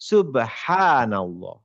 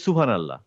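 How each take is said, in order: First: The vowel after 'subh' is long. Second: The vowel after 'subh' is short. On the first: The speaker calls it right. "সুবহানাল্লাহ একটা টান আছে।" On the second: The speaker calls it wrong. "আমরা বলি না। আমরা বলি সুবহানাল্লাহ।"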